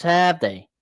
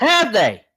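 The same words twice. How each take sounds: First: Said in the usual way. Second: Mock taunt through a laugh, higher and louder; laughing repeat. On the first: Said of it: "he goes". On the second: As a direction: echo the jab while laughing. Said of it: "repeats the taunt laughing".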